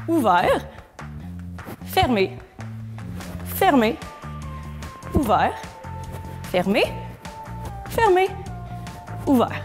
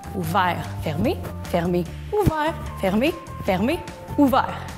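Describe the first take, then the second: First: The sequence is said slowly, with pauses. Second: The sequence is said quickly, run together.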